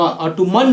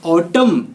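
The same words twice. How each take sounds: First: ऑटोमन as "aw-too-MUN", n sounded; drawn-out ऑटोमन in three syllables; wrong pronunciation. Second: ऑटम as "AW-tum", silent n; ऑटम closing on a plain "m"; correct pronunciation. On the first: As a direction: say ऑटोमन slowly with a final "n". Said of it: "ऑटोमन नहीं". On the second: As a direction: say ऑटम in two syllables. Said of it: "एन silent होगा". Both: Shown as a demonstration.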